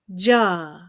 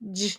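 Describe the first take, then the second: First: The consonant sound is followed by a short vowel. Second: The consonant sound is said alone, without a vowel. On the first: The speaker calls it wrong. "add an extra, what we call schwa sound" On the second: The speaker calls it right. "it should be j"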